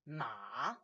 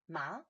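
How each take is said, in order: First: The pitch dips low then comes up. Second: The pitch rises from middle to high. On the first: It means horse. "Ma is a third tone. It's a dipping tone" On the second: It means hemp. "Second tone, ma, that's a rising tone"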